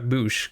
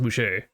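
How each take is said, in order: First: The surname is one syllable ending in sh. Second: The surname has a second syllable after sh. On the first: The speaker calls it wrong. "I had been saying it Chuck Boosh, because there's no R at the end or accent aigu" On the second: The speaker calls it right. "apparently it is pronounced Boucher"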